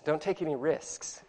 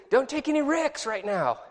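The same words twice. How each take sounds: First: Risks said fully, the s before the k clear, soft and slow; correct pronunciation. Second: Put-on ricks said with no s before the k, in a higher kid voice; mock the kid saying ricks instead of risks, pitched up; kid's mispronunciation. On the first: Shown as a demonstration. Teacher correcting the kid, risks said slowly and softly. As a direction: set it straight: risks, with the s clearly heard. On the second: Kid on second base calling to third, saying ricks. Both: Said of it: "He means risks".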